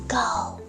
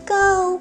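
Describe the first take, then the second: First: It is said quietly. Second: It is said at medium volume.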